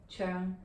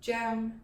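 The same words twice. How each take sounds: First: "Cheong" the English way, with an r-coloured vowel; English pronunciation. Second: "Cheong" pitched high, the Cantonese way; high falling Cantonese tone. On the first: Teacher shows surname number three in English, anglicised "Cheong". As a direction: say "Cheong" close to churng, not raised. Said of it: "in English, we most often pronounce this as". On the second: Teacher shows surname number three in Cantonese, high-toned "Cheong". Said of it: "it's pronounced the high falling Cheong". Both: Shown as a demonstration.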